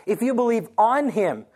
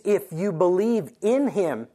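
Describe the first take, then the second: First: "on" leaned on, set against "in"; stress on on. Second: "in" leaned on, slow and drawn out; stress on in. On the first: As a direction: hit the word "on". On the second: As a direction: slowly weigh the word "in". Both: Shown as a demonstration.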